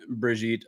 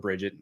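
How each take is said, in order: First: The name is pronounced the French way. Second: The name is pronounced the American way.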